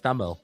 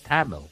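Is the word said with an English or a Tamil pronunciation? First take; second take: Tamil; English. First: It is pronounced the native Tamil way. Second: It is pronounced with an English accent.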